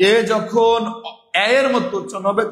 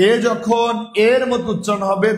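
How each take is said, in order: First: Second এ opened to "æ". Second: Close-mid "e" in both এ and এর; closed e. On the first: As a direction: say এ এর as open "æ-er". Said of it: "বিবৃত". (এ এর-এ বিবৃত "অ্যা" উচ্চারণ) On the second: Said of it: "তখন সেটা সংবৃত". (এ, এর-এর সংবৃত উচ্চারণ) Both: Shown as a demonstration.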